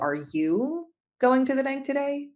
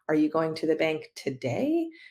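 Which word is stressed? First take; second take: you; today. First: The emphasis falls on the word you. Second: The emphasis falls on the word today. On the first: Someone else might be the one going. "Could imply that somebody else is going" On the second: The trip might happen on another day. "Could imply you're going on a different day"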